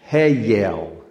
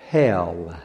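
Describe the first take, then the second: First: Hell drawled as Hey, yell; Hey, yell said slowly in two beats; Southern two-syllable hell. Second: Said in the usual way. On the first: Shown as a demonstration. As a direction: split the word into Hey, yell. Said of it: "Two syllables".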